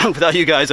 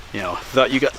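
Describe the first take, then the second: First: Clearing a gnat from the throat; talking through a throat tickle; just swallowed a bug. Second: Said in the usual way. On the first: Real, not acted. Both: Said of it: "I think I swallowed a gnat".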